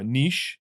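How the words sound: The word is said with a British pronunciation. "niche is the U K pronunciation"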